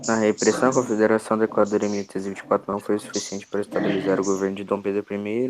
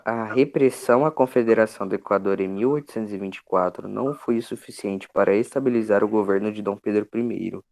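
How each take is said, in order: First: It is read fast. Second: It is read slowly.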